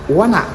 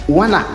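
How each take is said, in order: No difference in how they are said.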